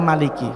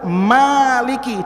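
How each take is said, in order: First: The first vowel is short. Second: The first vowel is long.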